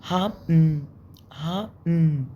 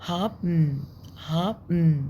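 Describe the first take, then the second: The two takes are said the same way.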